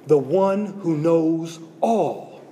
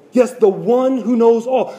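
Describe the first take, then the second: First: Slow, softer, drawn-out words; slow and hushed. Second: Said in the usual way. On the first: Shown as a demonstration. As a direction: let it land slowly and quietly. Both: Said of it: "repeated for emphasis".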